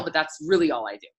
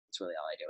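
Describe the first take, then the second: First: Said in the usual way. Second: "That's really all I do" dropped much lower and softer, almost to herself; quiet repeat. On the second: Real, not acted. Coach echoing her own point to viewers, softly under her breath. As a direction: mutter it a second time under your breath.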